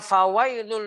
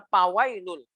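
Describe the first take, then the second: First: The word begins with an f sound. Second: The word begins with a p sound. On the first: The speaker calls it right. "Mestinya fawailul" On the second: The speaker calls it wrong. "kurang angin sehingga mirip dengan p"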